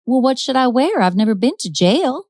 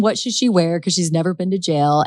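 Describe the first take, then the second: First: Put-on higher, lilting Southern belle accent. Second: Said in the usual way. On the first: Wanda to arresting detectives, hammed-up Southern accent. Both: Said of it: "That's my best Southern accent".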